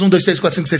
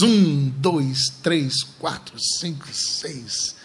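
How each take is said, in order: First: The numbers are counted quickly. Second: The numbers are counted slowly. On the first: The speaker calls it right. "é assim mais ou menos" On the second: The speaker calls it wrong. "tá contando devagar demais"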